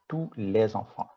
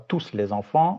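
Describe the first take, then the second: First: The final S of tous is silent. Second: The final S of tous is pronounced. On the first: The speaker calls it right. "on dit" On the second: The speaker calls it wrong. "On ne dit pas"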